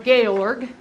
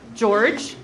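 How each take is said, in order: First: The name ends with a hard g sound. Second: The name ends with a soft j sound.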